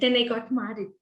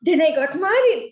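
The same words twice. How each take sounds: First: It is said flatly, with little vocal variety. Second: It is said with emotion and varied pitch. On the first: The speaker calls it wrong. "you said" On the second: The speaker calls it right. "Having some vocal variety and adding some voice modulations"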